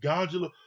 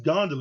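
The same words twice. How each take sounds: First: The word is said with a J sound. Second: The word is said without a J sound. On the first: The speaker calls it wrong. "He was calling it gondola" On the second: The speaker calls it right. "There's no J in it"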